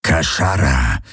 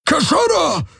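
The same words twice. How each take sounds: First: Tiefes, bedrohliches Raubtierknurren; Knurren. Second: Hohes, angespanntes Gebrüll einer fremden Spezies; Brüllen. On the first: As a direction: das fremde Wort tief knurren. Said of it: "knurrte er". (tief geknurrt wie ein Raubtier) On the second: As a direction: jemanden alarmiert anbrüllen. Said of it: "brüllte er sie an". (hoch herausgebrüllt) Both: A narrator's reading.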